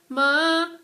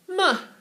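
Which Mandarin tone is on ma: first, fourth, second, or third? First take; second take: second; fourth. First: It is said with Mandarin's second tone. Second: It is said with Mandarin's fourth tone.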